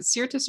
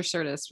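First: Sirtis with an "ear" vowel, SEER-tis; first pronunciation option. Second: Sirtis with an "er" vowel, SUR-tis; second pronunciation option. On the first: Podcaster checking an actress's surname, Sirtis as SEER-tis. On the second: Podcaster offering the other surname reading, Sirtis as SUR-tis. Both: Shown as a demonstration. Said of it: "is it Sirtis or Sirtis".

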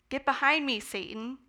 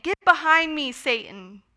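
First: Said in the usual way. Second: "Get behind me" said higher and louder, then "Satan" drops; stern emphatic rebuke, not a full shout; forceful rebuke. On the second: Retold or imitated. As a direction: hit the rebuke hard, like Jesus scolding. Repeated rebuke, now emphasized.

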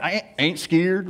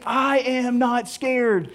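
First: Mild Southern ain't scared, said slowly; Southern drawl. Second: Each word slow and separate, I am not scared; slow full words. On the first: Showing how the sticker rolls four words into three, Southern drawl. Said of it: "Southernize it". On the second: Explaining the sticker's full meaning, slow and deliberate. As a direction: spell out all four words slowly. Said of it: "rolled it into about three syllables". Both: Shown as a demonstration.

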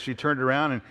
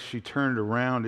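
First: Said in the usual way. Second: "she turned around" slowed, each word weighted; emphatic phrase. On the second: Shown as a demonstration. Preacher showing the emphatic phrase to the congregation, slow stress. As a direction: lean on "turned" slowly. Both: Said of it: "is in the emphatic".

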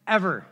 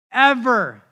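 First: Said in the usual way. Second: Ever punched out louder than before it; stress on ever. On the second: Shown as a demonstration. Pastor calling Julio the most stubborn, stressing ever. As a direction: hit the last ever hard. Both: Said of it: "ever, ever, ever".

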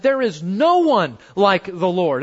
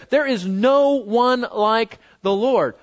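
First: Said in the usual way. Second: "no" pressed hard, whole line slowed; stress on no. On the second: Shown as a demonstration. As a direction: lean slowly on "no" in "There is no one like the Lord.". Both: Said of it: "they were absolutely right".

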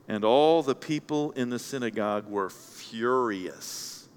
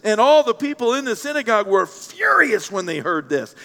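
First: Slow, low and softer; hushed reading. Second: Animated reading, leaning hard on furious; emphatic reading. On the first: Preacher reveals the crowd's turn, hushed and slow. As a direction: let the verse land slowly and quietly. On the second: Preacher rereads the crowd's turn, emphatic. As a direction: punch out the verse with rising indignation. Verse reread after the shocked reaction. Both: A narrator's reading.

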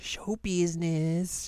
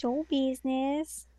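First: High, slow "Show business" with a rising end; drawn-out show business. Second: Slow "Show business" echoed with a rise. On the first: Host correcting cohost's word, slow and high. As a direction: stretch "Show business" out theatrically. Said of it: "Seeing how it works in showbiz". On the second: Cohost echoing the host's word, slow with a rise. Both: Shown as a demonstration.

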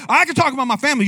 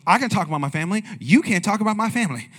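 First: Said in the usual way. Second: Mock protective wife; playful wife's retort, stress on can; wife snapping back about family; imitating the wife. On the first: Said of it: "she goes". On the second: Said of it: "And she goes".

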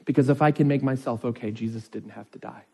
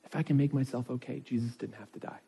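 First: Said in the usual way. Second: Repeated much softer, almost under the breath. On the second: Shown as a demonstration. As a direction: let it sink in, drop the volume on the repeat. Repeats key point, dropping softer.

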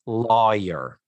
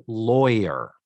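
First: "lawyer" with a Texas twang, LAW-yer; Texas-style "lawyer", drawn out. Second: "lawyer" said LOY-er, Northeast style; clipped "lawyer" as a Manhattan girl would say it. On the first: Podcast host mimics an actress's Texas "lawyer" in a Texas accent. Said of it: "Texas accent alert". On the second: Host shows the Northeast way: plain "lawyer". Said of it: "That is how you say it in the Northeast". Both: Shown as a demonstration.

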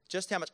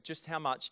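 First: "Just how much" repeated louder and higher, leaning on "how"; "how" pushed up and out on the repeat; stress on how. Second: Said in the usual way. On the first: Shown as a demonstration. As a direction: drive home "how" as an echo.

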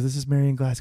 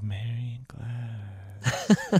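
First: Said in the usual way. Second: Put-on very slow, softer creepy boy voice; creepy slow drawn-out. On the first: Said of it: "she goes". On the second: Host imitating the eerie boy saying the name, very slow. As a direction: stretch the name out like a dead-eyed kid. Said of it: "He goes".

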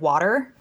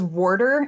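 First: Said in the usual way. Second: "warder" with an r before the d; mom's Baltimore pronunciation. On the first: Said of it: "instead of". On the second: Shown as a demonstration. Explaining how mom says water in Baltimore, "warder" with an added r. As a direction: say "warder" the Baltimore way, like WAR-der. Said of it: "my mom says".

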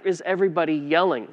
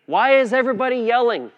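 First: Said in the usual way. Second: High, loud and fast, fed up with the noise; raised exasperated cry over the yelling. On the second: Retold or imitated. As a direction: throw the question up in frustration. Retelling a family yelling scene in car.

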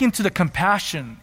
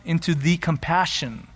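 First: Said in the usual way. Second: "the" singled out with emphasis; emphatic "the", as in the one and only; stress on "the". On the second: Shown as a demonstration. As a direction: lean on the word "the" before compassion. Repeats phrase to stress the article.

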